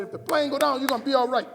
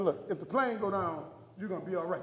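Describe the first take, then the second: First: Higher, much louder retold assurance; loud insistence. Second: Said in the usual way. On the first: Husband overriding his wife's protest, loud and insistent. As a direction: push the reassurance out loudly.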